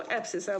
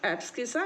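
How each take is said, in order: First: "एब्सिसा" with only an s, no k; C left silent. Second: "एब्सकिसा" with s and k both sounded; habitual hard C. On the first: Teacher quoting other people's pronunciation, C left silent. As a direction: skip the k in "एब्सिसा". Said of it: "कुछ लोग इसको एब्सिसा बोल देते हैं". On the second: Teacher showing students his habitual form, hard C. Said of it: "मेरी को आदत है एब्सकिसा बोलने की". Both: Shown as a demonstration.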